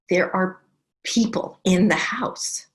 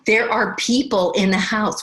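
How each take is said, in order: First: It is said at normal, softer volume. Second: It is said loudly.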